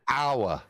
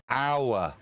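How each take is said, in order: First: The vowel is a full glided 'ow-er' sound. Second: The vowel is a full glided 'ow-er' sound.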